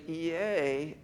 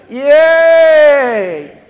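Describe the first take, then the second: First: It is said flatly and sounds sarcastic. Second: It is shouted loudly with real excitement.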